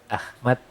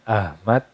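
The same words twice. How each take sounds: First: The h is a strong, throaty breath. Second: The h is a light, plain breath. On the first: "itu menggunakan huruf H yang artinya terpuji" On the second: "Kalau bilangnya Ahmad itu menggunakan uh, huruf H"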